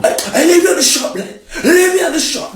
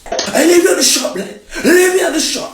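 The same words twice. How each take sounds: First: Very high, fast, laughing mimicry; mock her in a silly high squeak; squeaky mocking voice. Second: Very high, laughing mimicry; mock her in a silly high squeak; squeaky mocking voice. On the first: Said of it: "you're like". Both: Boyfriend mocking his girlfriend's words in a squeaky voice.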